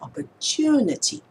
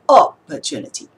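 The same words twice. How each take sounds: First: The stress is on the third syllable. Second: The stress is on the first syllable.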